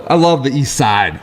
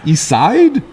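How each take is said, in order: First: Said in the usual way. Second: Put-on "East Side?" in a higher, lifted Shaker Heights accent; tossing off "East Side?" the way Shaker Heights locals say it. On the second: Host showing how Shaker Heights people say it, light Shaker Heights accent. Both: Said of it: "that's how they say it up there".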